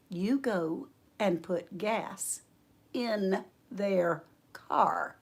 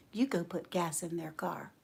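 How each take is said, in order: First: Very slow, soft, word by word; deliberate command. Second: Low, very soft command; near-whisper, calm and sure; hushed instruction. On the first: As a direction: voice the Lord patiently insisting. The Lord repeats order, word by word. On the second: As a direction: voice the Lord quietly telling her. Voices the Lord's quiet instruction. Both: Retold or imitated.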